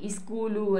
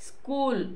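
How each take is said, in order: First: The word begins with an added i vowel. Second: The word begins directly with the s sound. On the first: Uneducated speakers say it this way. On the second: This is the standard form.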